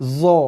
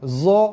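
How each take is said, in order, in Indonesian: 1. Konsonan itu adalah bunyi z yang mendengung. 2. Konsonan itu adalah bunyi z yang mendengung.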